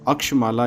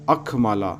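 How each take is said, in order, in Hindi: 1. मध्य व्यंजन 'ksh' के रूप में उच्चरित होता है। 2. मध्य व्यंजन 'kh' के रूप में उच्चरित होता है। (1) "ऋग्वैदिक उच्चारण में का प्लस श अर्थात छ" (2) "यजुर्वेदीय में ख होता है"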